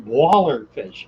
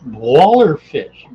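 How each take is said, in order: First: Said in the usual way. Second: Slow, louder drawn-out name; talking funny. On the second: Pretend. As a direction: drag out the name playfully. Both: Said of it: "talking funny".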